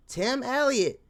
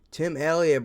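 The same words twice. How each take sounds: First: Said much higher, squeaky and hyped; hyped high name. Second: Said in the usual way. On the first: Pretend. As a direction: shout his name up high like a fan. High hyped name, then plain.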